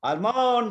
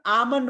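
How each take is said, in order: First: आलमन्ड with the L sounded out; common mispronunciation. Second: आमन्ड with the L silent; correct pronunciation. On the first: Teacher showing students their usual mistake, आलमन्ड mispronounced with an L. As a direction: say आलमन्ड as al-mond, L clearly heard. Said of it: "अङ्ग्रेजी भाषामा आलमन्ड भन्ने शब्दै छैन". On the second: Teacher correcting students' almond, आमन्ड said with silent L. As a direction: say आमन्ड as aa-mund, no L at all. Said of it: "यसलाई चाहिँ आमन्ड भन्दो रहेछ". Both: Shown as a demonstration.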